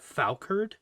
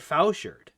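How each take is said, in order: First: The ch is said as a hard k sound. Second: The ch is said as a soft sh sound. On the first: This is how someone else said it. "how he spe- he pronounced that weapon" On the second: This is how the speaker has always said it. "I've always said Fouchard"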